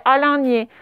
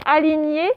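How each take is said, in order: First: ALIGNÉ misread with a nasal middle, a-lain-gné; mispronunciation. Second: Said in the usual way. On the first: Shown as a demonstration. Teacher shows what the misspelling reads like, mispronunciation. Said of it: "un N avant le G là". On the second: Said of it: "Ça faisait".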